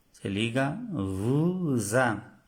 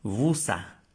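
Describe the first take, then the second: First: Slow, linking "vous a" as "vuza"; liaison shown. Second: "vous a" split apart, no z sound between; wrong unlinked take. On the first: Teacher showing Spanish speakers the liaison, slow and linked. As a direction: glide "vous a" together with a z sound, slowly. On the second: Teacher showing the wrong way to say it, split apart. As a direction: say "vous a" as two separate words. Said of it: "No decimos vous a". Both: Shown as a demonstration.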